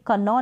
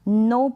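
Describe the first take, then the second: First: A k sound is heard before the n. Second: The word starts directly with the n sound. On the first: The speaker calls it wrong. "कनॉ नहीं पढ़ेंगे" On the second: The speaker calls it right. "नो पढ़ेंगे"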